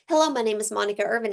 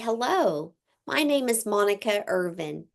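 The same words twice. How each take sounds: First: It is spoken quickly, rushing through the name. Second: It is spoken slowly, giving the name time. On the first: The speaker sounds nervous and the name is hard to catch. The speaker calls it wrong. "would you have caught my last name?" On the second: The speaker sounds confident and the name is easy to catch. The speaker calls it right. "you want to talk slow enough when you're introducing yourself"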